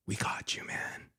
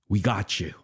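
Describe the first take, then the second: First: Hushed unvoiced whisper; secretive conspiratorial whisper. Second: Said in the usual way. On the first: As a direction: lean in and whisper it. Repeated line, now whispered.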